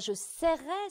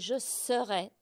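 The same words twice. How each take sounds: First: The first vowel of the verb is not eu-like. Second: The first vowel of the verb sounds like eu. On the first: The speaker calls it wrong. "c'est pas" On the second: The speaker calls it right. "C'est comme une sœur"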